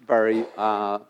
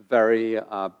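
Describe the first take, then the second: No difference in how they are said.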